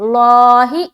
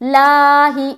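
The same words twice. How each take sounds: First: The L sound is thick and heavy. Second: The L sound is thin and light. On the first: "ये मोटा है" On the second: "ये बारीक है"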